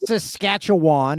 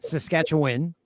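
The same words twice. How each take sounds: First: The last syllable sounds like 'wan', said slowly. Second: The last syllable sounds like 'win', said quickly. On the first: The speaker calls it wrong. "it's not Saskatchewan" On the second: The speaker calls it right. "you say win at the end"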